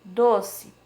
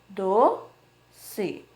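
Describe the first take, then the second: First: Said in the usual way. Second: "Do-ce" split as do... ce with a clear pause; each syllable of "Do-ce" said alone. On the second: Shown as a demonstration. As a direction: sound out "Do-ce" in two drawn-out beats. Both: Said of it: "Duas sílabas".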